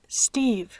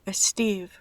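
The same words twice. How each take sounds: First: It starts directly with the S sound. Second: A short e vowel comes before the S. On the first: The speaker calls it right. "se pronuncia la S directamente, sin una E delante" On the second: The speaker calls it wrong.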